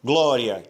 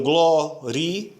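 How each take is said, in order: First: "glória" with an open ó and ia gliding together; two syllables, "glória", ia as one sound; correct pronunciation. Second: Gloria with a closed o, split into three syllables; wrong pronunciation. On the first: Teacher modelling the right "glória" for students. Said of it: "a palavra é glória". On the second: Teacher demonstrating the wrong split of "gloria". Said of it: "você fez uma divisão errada". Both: Shown as a demonstration.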